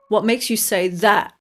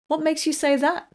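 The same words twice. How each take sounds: First: The word 'that' is strongly stressed. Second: The word 'that' is not stressed. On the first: The speaker calls it wrong. "If you stress that, then it sounds like you want to fight" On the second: The speaker calls it right. "So be sure to say it like this"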